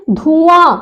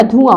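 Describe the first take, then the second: First: धुआं slowly as dhūū-ān; wrong long vowel. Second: धुआं lower, with a quick dhu; correct short vowel. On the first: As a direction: stretch the first vowel of धुआं. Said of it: "वो शुद्ध नहीं है". (धुआं में ऊ खींचकर) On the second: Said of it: "शुद्ध क्या?". (धुआं में छोटा उ) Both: Shown as a demonstration.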